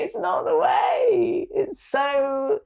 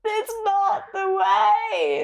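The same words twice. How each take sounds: First: High, slow, tearful repeat; real crying, voice breaking. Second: High, slow, breaking cry on "way"; real tearful cry. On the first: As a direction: cry the words out. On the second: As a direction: let the voice crack with tears. Emotional breaking point. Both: Real, not acted.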